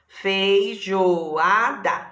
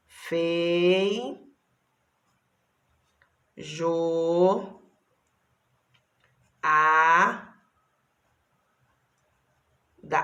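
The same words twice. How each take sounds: First: Feijoada said whole, drawn out very slowly; slow, stretched whole word. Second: Fei, jo, a, da each said alone with long pauses while writing; sílabas bem separadas; syllable by syllable. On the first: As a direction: join the syllables back into one slow word. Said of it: "Consegui, olha lá". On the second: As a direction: spell the word out in syllables as you write. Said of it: "Deixa eu ver se eu consigo escrever". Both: Shown as a demonstration.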